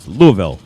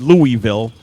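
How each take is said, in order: First: It is pronounced the way locals say it. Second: It is pronounced the way outsiders say it. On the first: The speaker sounds like a local. The speaker calls it right. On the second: The speaker is from out of town. The speaker calls it wrong.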